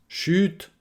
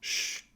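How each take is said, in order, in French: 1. Le T final est clairement prononcé et relâché. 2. Le T final est coupé et non relâché. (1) "Si vous prononcez le T, ça montre une certaine insistance" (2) "On a tendance à le, à le manger, ce T"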